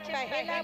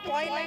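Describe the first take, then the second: First: The word is said as three syllables, po-he-la. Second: The word is said as two syllables, poy-la. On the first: The speaker calls it right. "কথাটা হচ্ছে পহেলা বৈশাখ" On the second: The speaker calls it wrong. "কথাটা কিন্তু পয়লা নয়"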